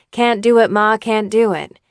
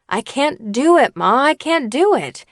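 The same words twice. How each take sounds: First: Mild, pleasant reading; pleasant and nice. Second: Higher and louder, pressing "do"; mean it, lean hard on "do"; strong emphasis. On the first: Young actor reading his line too pleasantly to coach. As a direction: say it nicely, no push. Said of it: "he would say it really pleasant and nice". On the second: Young actor finally says it like he means it to coach. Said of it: "he would finally say with strong emphasis". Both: Retold or imitated.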